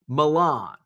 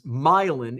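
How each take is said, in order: First: The name is said the commonly expected way. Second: The name is said the local Illinois way.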